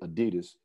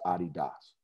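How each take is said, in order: First: It is said the American way. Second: It is said the non-American way. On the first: This is what the brand is called in America. "pretty much mostly only Americans say Adidas" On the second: This is the original pronunciation of the brand. "rest of the world and the real pronunciation of the brand is Adidas"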